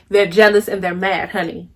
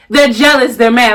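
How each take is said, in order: First: Repeating it to the viewers, lower and softer; quieter, lower repeat. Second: Said in the usual way. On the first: Shown as a demonstration. To the camera, a low knowing repeat. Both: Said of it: "I'm gonna say that again".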